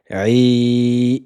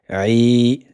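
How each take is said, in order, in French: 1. La voyelle est tenue pendant quatre temps. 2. La voyelle est tenue pendant deux temps. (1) "c'est quatre temps" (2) "deux temps"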